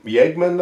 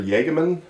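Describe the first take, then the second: First: "Yagman" in two syllables, YAG-man; higher-pitched guess at "Yagman" as YAG-man; tentative pronunciation. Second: "Jagemann" in three syllables, YAH-guh-man; higher-pitched second guess, "Jagemann" as YAH-guh-man; alternative pronunciation. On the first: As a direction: try "Yagman" with a Y sound and no middle vowel. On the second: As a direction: offer "Jagemann" with a middle vowel after the g. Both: Shown as a demonstration. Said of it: "I guess, or Jagemann".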